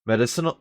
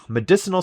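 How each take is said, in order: First: "Medicinal" begun as MED-icinal; mispronounced medicinal. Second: "medicinal" stressed as me-DIS-inal; corrected medicinal. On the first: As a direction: say "Medicinal" with the stress wrongly on MED. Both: Real, not acted. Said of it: "ugh, medicinal".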